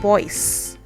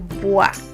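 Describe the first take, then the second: First: The vowel sounds like 'oy' in 'boy'. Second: The vowel sounds like 'wa' in 'water'. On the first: The speaker calls it wrong. "don't say Roy and Boyce" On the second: The speaker calls it right. "It's roi, le bois"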